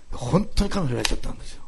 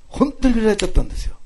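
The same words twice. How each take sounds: First: Said in the usual way. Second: 本当に pitched high and punched; emphatic repetition. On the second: Real, not acted. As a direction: hit 本当に high and louder to insist. Repeats it for emphasis. (「本当に」を高く強調して)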